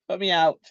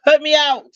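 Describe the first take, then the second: First: Said in the usual way. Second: Emphatic. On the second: Real, not acted. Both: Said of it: "it put me to sleep".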